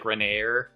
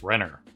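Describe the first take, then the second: First: The second syllable is a drawn-out 'air' sound. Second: The second syllable is a short, plain 'er' sound. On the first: The speaker calls it wrong. "that's how you get the A sound, like Renair, that kind of thing, the very French kind of thing" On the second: The speaker calls it right. "no, it's just Renner"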